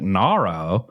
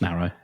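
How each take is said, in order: First: It is said as a question in an American accent. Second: It is said plainly, in the speaker's usual accent. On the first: The speaker calls it wrong. "I don't know why everybody's suddenly got an American accent" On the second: The speaker calls it right. "it's just narrow"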